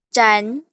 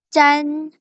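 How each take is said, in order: First: The pitch rises from middle to high. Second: The pitch stays high and level.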